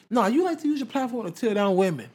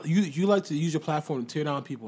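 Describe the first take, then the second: First: High-pitched, pointed accusation; emphatic correction. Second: Said in the usual way. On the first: Retold or imitated. Retelling Nicki correcting herself to women, emphatic high-pitched mock accusation. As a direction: raise the pitch and press the correction home.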